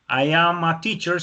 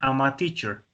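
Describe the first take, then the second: First: The pronoun and verb are said as separate words. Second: The pronoun and verb are merged into one syllable. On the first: "no nos digan, por ejemplo, I am a teacher" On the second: "sino que nos digan I'm a teacher ... Con la contracción"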